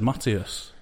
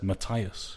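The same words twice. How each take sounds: First: "Matias" said ma-TEE-as; ee pronunciation. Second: "Matthias" said ma-TIE-as; eye pronunciation. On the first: Co-host defends his usual version, "Matias" as ma-TEE-as. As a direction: say "Matias" with an ee in the middle. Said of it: "I always said Matias". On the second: Co-host quotes the awards show, "Matthias" as ma-TIE-as. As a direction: say "Matthias" with an eye sound in the middle. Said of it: "they said Matthias". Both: Shown as a demonstration.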